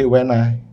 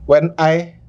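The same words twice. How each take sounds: First: The two words are linked together smoothly. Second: The two words are said separately. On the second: "instead of"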